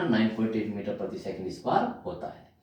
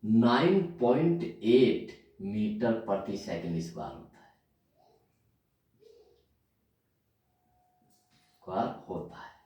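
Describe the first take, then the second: First: Said in the usual way. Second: Slow dictation. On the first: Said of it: "कितना?". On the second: Shown as a demonstration. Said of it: "पूरा लिखता हूं".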